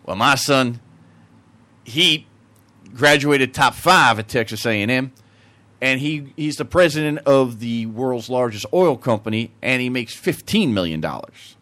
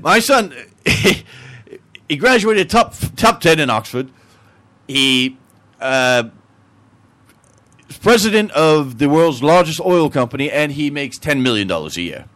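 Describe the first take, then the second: First: Put-on Texan accent. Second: Put-on Englishman accent. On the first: Texan outdoing the Englishman about his son, Texan accent. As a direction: brag evenly as a Texan. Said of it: "The Texan". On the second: Englishman boasting of his son's success, English accent. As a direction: restart the brag as an Englishman. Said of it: "The Englishman says".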